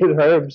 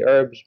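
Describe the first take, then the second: First: It is said the way it is in England. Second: It is said the American way.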